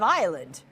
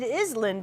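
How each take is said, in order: First: The s is silent. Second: The s sound is pronounced. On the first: The speaker calls it right. "instead of island" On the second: The speaker calls it wrong. "you look like a dork dork because you said island"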